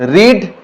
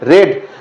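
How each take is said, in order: First: The vowel is long, like 'reed'. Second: The vowel is short, like 'red'. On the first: It is the present tense. "read present form" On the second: It is the past tense or past participle. "Past और past participle रीड नहीं होता है रेड होता है"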